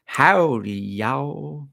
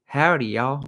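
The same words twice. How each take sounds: First: High, exaggerated Texas drawl; terrible Texas accent. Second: Lightly put-on Texas twang; a light, higher Texas greeting; Texas accent. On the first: Imitating an actress's terrible accent, overdone Texas drawl. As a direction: ham up a bad Texas accent. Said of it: "she did this Texas accent". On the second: Greeting visitors to Texas, light Texas accent. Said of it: "come to Texas and you wanna hear".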